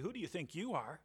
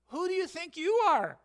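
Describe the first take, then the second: First: The question sounds nasty and condescending. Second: The question sounds gentle and reminding. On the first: It is a put-down of someone. The speaker calls it wrong. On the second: It is a reminder of one's place. The speaker calls it right.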